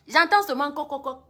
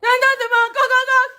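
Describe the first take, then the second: First: Faint knocking heard from the room. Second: High, loud "coq, coq" like banging on a door; urgent pounding at the hotel door; loud knocking imitation. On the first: Retold or imitated. Imitating knocking at door.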